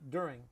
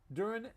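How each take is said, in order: First: The ending is said with the g sound. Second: The ending is said without the g sound.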